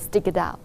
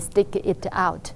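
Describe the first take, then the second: First: The words run together like one word. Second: Each word is said separately and clearly. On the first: The speaker calls it right. "They say stick it out" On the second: The speaker calls it wrong. "they never say stick it out"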